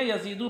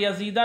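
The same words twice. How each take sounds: First: यजीदु ending in a short "u"; correct nominative ending. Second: यजीदा ending in an open "aa"; rejected accusative ending. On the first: Teacher telling students how to read it, nominative pronunciation. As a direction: say यजीदु as "ya-zee-du". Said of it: "यजीदु पढ़ेंगे". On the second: Teacher to students showing the ending to avoid, accusative pronunciation. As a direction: say यजीदा as "ya-zee-daa". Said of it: "यजीदा नहीं पढ़ेंगे". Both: Shown as a demonstration.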